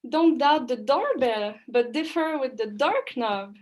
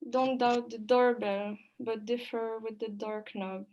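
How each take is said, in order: First: It sounds surprised, with lively intonation. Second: It sounds sad, with almost flat intonation.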